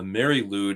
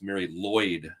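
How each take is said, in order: First: The second word rhymes with food. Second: The second word rhymes with void. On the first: The speaker calls it wrong. "although I'm being told that the cor- correct pronunciation is Mary Lloyd" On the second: The speaker calls it right. "the correct pronunciation is Mary Lloyd"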